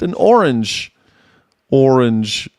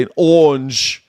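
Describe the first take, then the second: First: Said in the usual way. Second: English-style "orange", the r softened into a long "aw"; British "awnge" for "orange"; English accent. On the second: Shown as a demonstration. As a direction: draw out "orange" as the English might. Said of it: "I think they would say".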